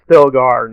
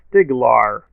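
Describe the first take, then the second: First: The middle sounds like 'stil-gar'. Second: The middle sounds like 'stig-lar'. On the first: The speaker calls it right. "Stilgar, not the other one" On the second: The speaker calls it wrong. "he called him Stiglar"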